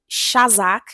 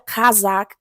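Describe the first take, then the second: First: The word begins with a 'sh' sound. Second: The word begins without a 'sh' sound. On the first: The speaker calls it wrong. "o C H no hebraico ele não tem som de C H, então não é chá" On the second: The speaker calls it right. "eu acredito que se pronuncia kazak ou hazak"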